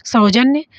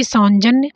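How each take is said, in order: First: सौजन्य as "sau-janya"; correct, no nasal. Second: सौजन्य with an extra n, "saun-janya"; wrong nasal. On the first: Teacher giving the proper word, correct without nasal. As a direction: open first syllable in सौजन्य, no n. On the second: Teacher reading a misspelt option aloud, wrong nasal. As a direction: nasalise the first syllable of सौजन्य. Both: Shown as a demonstration. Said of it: "ये गलत है".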